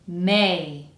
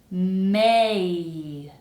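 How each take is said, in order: First: The word is said at normal speed. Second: The word is said slowly and carefully. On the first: "the second time normally" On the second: "The first time kind of slowly"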